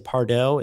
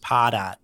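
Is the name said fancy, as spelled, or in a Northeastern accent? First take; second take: fancy; Northeastern. First: The name is said in a fancy, foreign-sounding way. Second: The name is said with a Northeastern American accent. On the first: "It sounds more sophisticated, like Target or Uber" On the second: "one person from the Northeast who says Pardot"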